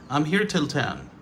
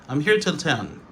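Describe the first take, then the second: Both takes have the same delivery.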